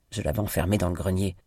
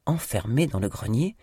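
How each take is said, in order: First: Quick flat statement, falling on "grenier"; matter-of-fact statement. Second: "Enfermée" stressed, "grenier" rising as a question; incredulous question. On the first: Miranda tells Stanley plainly what she did. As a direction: say "Je l'avais enfermée dans le grenier" briskly as plain fact. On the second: Stanley repeating Miranda's words in disbelief. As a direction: echo "Enfermée dans le grenier?" with a rising, surprised tune. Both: A narrator's reading.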